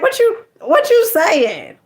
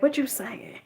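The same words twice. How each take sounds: First: Big shot swagger. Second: Big shot. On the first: Imitating a big shot flexing his ten million on the listener. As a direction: lean back and dare them like a big shot. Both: Retold or imitated. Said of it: "like, a big shot".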